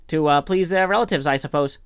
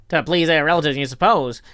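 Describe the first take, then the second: First: Tentative visitor. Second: Mock it back with emphatic scorn; scornful echo in old sailor's dialect; intense scorn. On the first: Acted. Visitor answering the old man's challenge, mildly tentative. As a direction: offer it politely, unsure. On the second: Old man throwing visitor's answer back, scornfully. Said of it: "he said with intense scorn".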